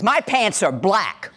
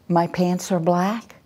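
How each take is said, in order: First: It is said harshly and forcefully, like a threat. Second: It is said hesitantly, rising like a question. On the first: The speaker dares anyone to disagree. "An aggressive voice is" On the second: The speaker is unsure and seeks approval. "when we have a passive voice, it's like"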